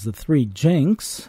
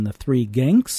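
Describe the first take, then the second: First: The name starts with a j sound. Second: The name starts with a hard g sound. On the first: The speaker calls it wrong. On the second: The speaker calls it right.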